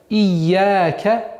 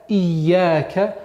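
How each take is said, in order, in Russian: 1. Звук y в середине произносится долго. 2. Звук y в середине произносится долго.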